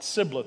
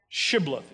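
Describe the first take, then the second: First: The word begins with a plain s sound. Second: The word begins with an sh sound. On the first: The speaker calls it wrong. "not Sibboleth" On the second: The speaker calls it right. "Shibboleth is the way you say it"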